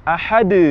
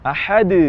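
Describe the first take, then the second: No difference in how they are said.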